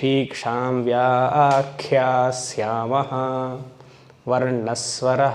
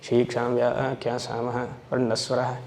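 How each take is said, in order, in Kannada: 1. ಇದನ್ನು ನಿಧಾನವಾಗಿ, ಪ್ರತಿ ಅಕ್ಷರವನ್ನೂ ಸ್ಪಷ್ಟವಾಗಿ ಉಚ್ಚರಿಸಿ ಪಠಿಸುತ್ತಾರೆ. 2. ಇದನ್ನು ಬೇಗಬೇಗನೆ ಪಠಿಸುತ್ತಾರೆ, ಸರಿಯಾಗಿ ಉಚ್ಚರಿಸದೆ. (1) "ಬಟ್ ಹಾಗೆ ಹೇಳಬೇಕು" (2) "ಟೈಮ್ ಇಲ್ಲ ಅಂದರೆ ನಾವು ಹೀಗೆ ಹೇಳ್ಕೊಳ್ಳೋದು"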